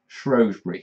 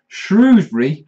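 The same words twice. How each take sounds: First: The first vowel is an 'oh' sound. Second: The first vowel is an 'oo' sound.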